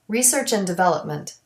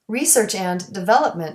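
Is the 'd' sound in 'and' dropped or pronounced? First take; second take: dropped; pronounced. First: The d sound in and is dropped. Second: The d sound in and is pronounced.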